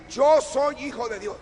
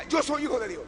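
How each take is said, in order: First: Emphatic declaration. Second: Said in the usual way. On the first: Shown as a demonstration. Preacher shows the congregation how to declare it, loud and emphatic. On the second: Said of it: "No diga".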